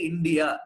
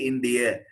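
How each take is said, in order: First: The final vowel is long. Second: The final vowel is short. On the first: The speaker calls it wrong. "They don't say India" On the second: The speaker calls it right. "they say India"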